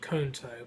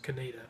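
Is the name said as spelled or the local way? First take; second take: as spelled; local. First: The name is said the way it is spelled. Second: The name is said the local way. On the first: The speaker calls it wrong. "spelled Conto" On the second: The speaker calls it right. "but it's pronounced Coneta"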